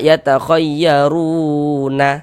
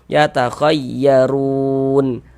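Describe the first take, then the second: First: The word ends with an added vowel a. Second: The word ends on a silent final n. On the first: The speaker calls it wrong. "Jangan dibaca yatakhayyaruna. Salah" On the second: The speaker calls it right. "kalau kita berhenti di huruf nun, kita baca yatakhayyarun"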